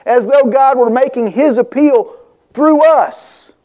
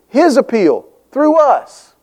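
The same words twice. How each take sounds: First: Said in the usual way. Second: "His appeal through us" slowed, leaning on "His"; "His appeal through us", dwelt on word by word; slow emphatic repeat. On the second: Shown as a demonstration. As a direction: repeat it slowly, pressing "His".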